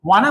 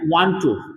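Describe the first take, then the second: First: The two words are run together into one. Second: The two words are said separately and fully.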